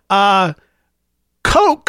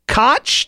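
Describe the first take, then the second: First: It sounds like the word coke. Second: It rhymes with crotch. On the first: "Like the soft drink" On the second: "to rhyme with crotch"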